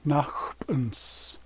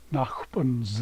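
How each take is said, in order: First: The word ends with a hissing S sound. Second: The word ends with a buzzing Z sound. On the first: The speaker calls it right. "the S always sounds like S" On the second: The speaker calls it wrong. "It doesn't make a Z sound"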